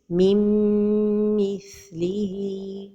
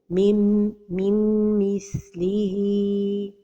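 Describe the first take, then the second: First: The nasal merge is held with no n. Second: A separate n sound is pronounced before the m. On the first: The speaker calls it right. "the right pronunciation is mim mithlihi without pronouncing noon" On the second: The speaker calls it wrong. "pronounce the noon"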